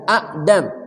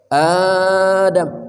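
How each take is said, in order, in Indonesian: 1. Hamzah menutup vokal pendek di awal. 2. Vokal pembuka dipanjangkan. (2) "Hamzah kedua yang mati itu diganti panjang"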